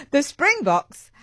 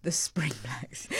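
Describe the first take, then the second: First: Louder and higher, "Springboks" said slowly and clearly with a laugh; laughing correction. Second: Whispered slowly, "Spring Blacks" breathed out as a self-mocking blunder; embarrassed whisper. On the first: Presenter fixing her slip on air, laughing. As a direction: correct the name through a laugh. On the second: Presenter repeating her own slip to herself, whispered. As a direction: hush the wrong name as if caught out. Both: Real, not acted. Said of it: "Oh, it was going so well".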